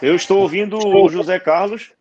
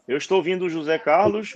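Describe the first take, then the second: First: Raised, higher voice over a bad line; to someone hard of hearing. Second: Said in the usual way. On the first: Real, not acted. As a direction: speak up so they can hear you. Answering over a bad connection.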